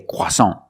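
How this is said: It is said with a French pronunciation. The speaker calls it wrong. "we do not say croissant. That's French"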